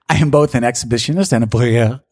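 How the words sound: It is said in a put-on French accent. "Now I'm going to try French"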